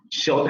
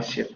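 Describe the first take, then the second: First: "short" with an open o for "shirt"; Geordie short. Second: Said in the usual way. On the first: Shown as a demonstration. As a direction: say "short" rounded like o. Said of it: "short en lugar de shirt". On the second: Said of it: "en lugar de shirt".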